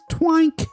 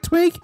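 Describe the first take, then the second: First: The vowel sounds like the one in 'bank'. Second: The vowel sounds like the one in 'ink'. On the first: The speaker calls it right. "It's pronounced Twank" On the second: The speaker calls it wrong. "you're pronouncing it like Twink"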